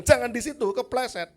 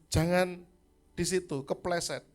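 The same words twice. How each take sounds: First: High, loud exasperated shout; exasperated yell. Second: Put-on raised warning to a small child. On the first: Retold or imitated. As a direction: yell the warning, losing patience. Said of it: "Umur lima belas tahun saya bilang". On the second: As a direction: call out a firm warning, a bit louder. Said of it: "Niel saya bilang".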